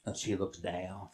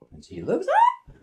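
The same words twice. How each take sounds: First: Very low, soft voice; low looking down. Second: High looking up. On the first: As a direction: drop right down with her gaze. Horse looking down, acted by pitch. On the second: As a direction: leap very high on up. Horse looking up, acted by pitch. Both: Acted.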